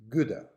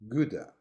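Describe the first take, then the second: The two takes are said the same way.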